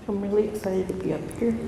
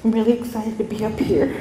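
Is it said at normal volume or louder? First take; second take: normal; louder. First: It is said at normal volume. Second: It is said a little louder.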